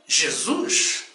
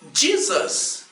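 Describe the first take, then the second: First: The name is pronounced the Portuguese way. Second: The name is pronounced the English way. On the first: "no Brasil e em todas as nações de língua portuguesa... dizemos com muita fé e alegria" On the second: "Os povos de língua inglesa dizem"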